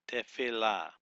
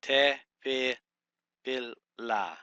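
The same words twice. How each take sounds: First: Said in the usual way. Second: Te, fi, fil, la in separate, deliberate beats; syllable by syllable. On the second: Shown as a demonstration. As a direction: sound out Te, fi, fil, la with gaps between syllables. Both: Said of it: "you start the third syllable".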